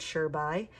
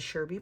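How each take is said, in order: First: "sure by" as two words, SURE then BY; correct band name. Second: "Sherby" run together as one word, SHER-bee; common mispronunciation. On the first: Vlogger correcting fans on her band's name, clear "sure by". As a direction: say "sure by" like "sure" plus "bye". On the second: Vlogger showing how everyone misreads her band's name, "Sherby". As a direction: say "Sherby" the wrong way, stress on SHER. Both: Shown as a demonstration. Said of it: "but that's not how you say it".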